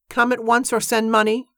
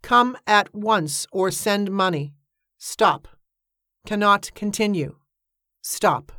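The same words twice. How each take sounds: First: High-pitched recital with a rising end; quoting a telegram. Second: Slow, measured dictation with separated words; telegram read-out. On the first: Iris quotes the telegram back to Cornelia, high-pitched recital. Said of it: "Iris quoted". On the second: Narrator reads out an urgent telegram, slowly and deliberately. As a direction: read out each phrase like a wired message. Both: A narrator's reading.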